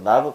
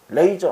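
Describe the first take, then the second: First: The first vowel sounds like 'ah'. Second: The first vowel sounds like 'ay'. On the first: The speaker calls it right. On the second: The speaker calls it wrong.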